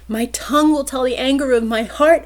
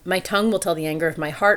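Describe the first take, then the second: First: The line is yelled loudly. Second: The line is spoken without yelling.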